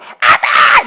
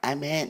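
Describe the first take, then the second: First: It is said loudly and energetically. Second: It is said quietly with little energy.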